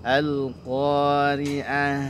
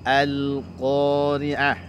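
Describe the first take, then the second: No difference in how they are said.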